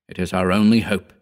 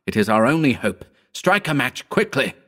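First: Steady, even reassurance; calmly laying out the plan; calm firm statement. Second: Pleading, pitched up with urgency; begging him to act now; urgent entreaty. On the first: Narrator calmly instructing Howard, steady. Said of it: "I said". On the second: Narrator urging Howard to strike a match, pleading. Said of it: "I entreated". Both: A narrator's reading.

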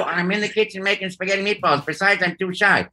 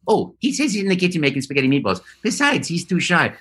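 First: A hint of shy Luigi, faster; voiced as Luigi calling from the kitchen. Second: Mario relaying cheerfully, fast; light Italian plumber voice. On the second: Pretend.

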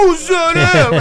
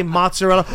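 First: Loud, high, mock Italian mangling; hammed-up Italian accent. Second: Said in the usual way. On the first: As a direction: overdo the Italian accent at full volume. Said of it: "when someone's Italian". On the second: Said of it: "they can't say mozzarella".

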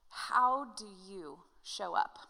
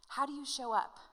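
First: "How do you show up?" drawn out slowly, leaning on "How"; slow weighty question. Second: Said in the usual way. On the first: Shown as a demonstration. Pastor posing the key question to his congregation, slow and weighty. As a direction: let "How" hang, then ease through "do you show up". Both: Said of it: "it's this question".

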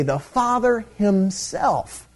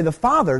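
First: FATHER HIMSELF drawn out slowly; emphatic repetition. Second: Said in the usual way. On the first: Shown as a demonstration. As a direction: stretch Father, then land firmly on Himself. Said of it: "So it adds emphasis on the statement". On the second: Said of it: "So they don't say".

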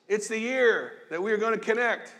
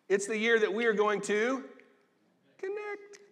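First: Said in the usual way. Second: Cute high connect. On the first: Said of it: "Am I trying to be serious? Yes". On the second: Shown as a demonstration. Pastor playfully teasing his church, connect squeaked high. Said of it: "Am I trying to be cute? Yes".

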